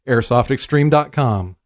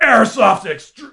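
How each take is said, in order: First: It is said in his normal voice. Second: It is said in a booming monster-truck voice.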